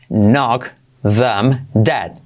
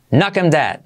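First: Very slow knock them dead; slow explained. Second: "Knock 'em dead" with them cut to 'em; dropped th. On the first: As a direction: space every word out. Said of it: "primero explicado lento". (despacio, palabra por palabra) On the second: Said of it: "Podemos saltar el, la T H". (sin la T H: "knock 'em dead") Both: Shown as a demonstration.

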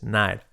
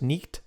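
First: "night" as "naid", gh silent; correct pronunciation. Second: "nicht" as spelt, "neekt"; wrong pronunciation. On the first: Teacher correcting learners, correct "night". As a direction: say "night" with an eye glide. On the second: Teacher showing the error, mispronounced "nicht". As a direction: mispronounce night as "nicht", k sounded. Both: Shown as a demonstration. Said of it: "no es nicht".

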